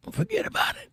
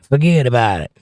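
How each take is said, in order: First: Put-on high, soft, half-hearted New York accent; attempted New York accent. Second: Put-on failed New York accent in a Southern voice; attempted New York accent. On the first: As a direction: try a New York accent, barely voiced. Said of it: "I can't do a New York". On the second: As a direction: have a go at New York, staying mostly Southern. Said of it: "my voice is too Southern".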